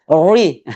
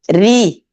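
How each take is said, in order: First: The r is pronounced thick and heavy. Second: The r is pronounced thin and light. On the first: The speaker calls it wrong. "kalau kita mau baca tebal ses lagi" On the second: The speaker calls it right. "kalau dia berbaris bawah tipis"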